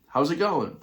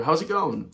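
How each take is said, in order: First: Higher, cheery Irish hello again; repeated Irish greeting. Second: Higher, cheery Irish hello; a casual Irish hi to a stranger; regular Irish greeting. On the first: To the staring stranger, the Irish greeting again. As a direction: try the Irish hi once more. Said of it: "then I said it again". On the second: To a silent stranger at the beach, casual Irish hi. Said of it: "Just a regular". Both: Retold or imitated.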